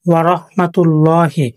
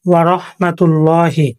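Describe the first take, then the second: No difference in how they are said.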